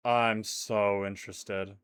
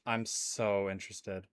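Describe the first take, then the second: First: Slow, lingering so interested; drawn-out interested. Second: Dry and quiet. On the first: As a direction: stretch it out with mock awe. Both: Shown as a demonstration.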